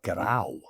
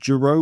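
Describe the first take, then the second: First: The name is said with Occitan sounds. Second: The name is said with English sounds. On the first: "is the original Occitan" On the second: "the anglicized way to say it"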